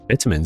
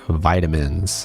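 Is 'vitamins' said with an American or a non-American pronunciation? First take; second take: non-American; American. First: The word has a non-American pronunciation. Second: The word has an American pronunciation. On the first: "is how you say it" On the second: "you want to Americanize it?"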